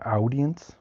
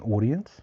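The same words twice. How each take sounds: First: The first vowel is not an 'or' sound. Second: The first vowel is an 'or' sound. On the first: The word was learnt from its spelling. "So they'll say audience" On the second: This is the usual way it is said. "A U becomes or"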